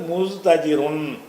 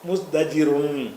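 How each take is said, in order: First: A t sound follows the s sound. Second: A d sound follows the s sound. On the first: The speaker calls it wrong. "சொல்லக்கூடாது" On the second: The speaker calls it right. "தே இடத்துல தாளு தான் இருக்கும்"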